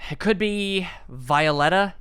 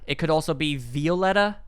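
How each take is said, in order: First: Violetta begun with "vye", like "vial"; first pronunciation. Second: Violetta begun with "vee", as VEE-oh-LET-uh; alternative pronunciation. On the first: Reader guessing at a character's name, Violetta as VYE-uh-LET-uh. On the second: Reader offering another guess at the name, Violetta as VEE-oh-LET-uh. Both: Shown as a demonstration.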